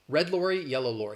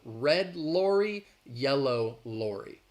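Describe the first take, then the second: First: The phrase is said quickly. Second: The phrase is said slowly. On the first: "I'm going to say it three times quickly" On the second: "I'm saying it a little slowly"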